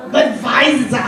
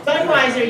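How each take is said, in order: First: Budweiser with a German V, said Budvaiser; mock German accent on Budweiser, the w turned to v; hammed-up German accent saying Budweiser as Budvaiser; bad German accent. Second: Said in the usual way. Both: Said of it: "A really bad German accent".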